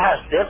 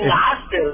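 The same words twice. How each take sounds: First: The stress is on the last syllable. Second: The stress is on the first syllable. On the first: The speaker calls it right. "cuando es Aster, porque terminar en ere" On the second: The speaker calls it wrong. "le ponen tilde a la A, la convierten en una grave"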